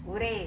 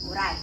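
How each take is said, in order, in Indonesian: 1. Kata itu berakhir dengan bunyi 'e', gaya Palembang. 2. Kata itu berakhir dengan bunyi 'ai', gaya baku.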